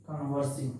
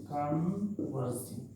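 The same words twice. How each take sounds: First: Said in the usual way. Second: converging stretched out slowly, falling at the end; slow drill. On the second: Shown as a demonstration. Teacher drilling the term for students, slowly. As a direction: draw out converging so students can repeat it.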